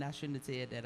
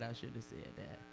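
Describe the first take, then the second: First: Said in the usual way. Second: Much softer, half to herself; muttered regret. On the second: Real, not acted. Comic caught after a bomb joke, muttering softer.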